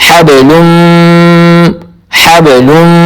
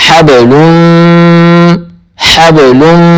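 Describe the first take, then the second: Both takes have the same delivery.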